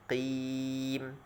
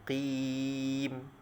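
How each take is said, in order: The two takes are said the same way.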